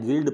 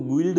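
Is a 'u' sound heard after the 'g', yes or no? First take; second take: no; yes. First: No 'u' sound is heard after the 'g'. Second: A 'u' sound is heard after the 'g'. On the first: The speaker calls it right. "तो यू को नहीं पढ़ा जाएगा" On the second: The speaker calls it wrong. "इसको गिल्ड नहीं पढ़ना है"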